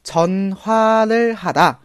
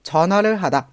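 First: It is said at a slower pace. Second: It is said at a faster pace.

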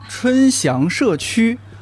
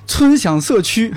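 First: It is said in near-standard Mandarin. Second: It is said in strong Shanxi dialect. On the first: "相对学点普通话啊" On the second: "如果是我之前不会普通话的状态"

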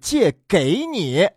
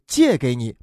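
First: The stress falls on 给. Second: The stress falls on 借. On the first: The car is given to you. The speaker calls it wrong. "不是借给你" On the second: The car is only lent to you. The speaker calls it right. "来跟着专业的主持人来学一下重音啊，是借给你"

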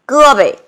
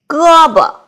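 First: It is said in a Beijing accent. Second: It is said in standard Mandarin.

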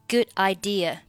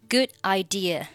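Both takes have the same delivery.

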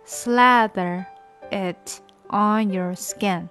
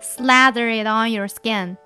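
First: It is read at a slow speed. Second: It is read at a normal speed.

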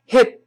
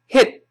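Both takes have the same delivery.

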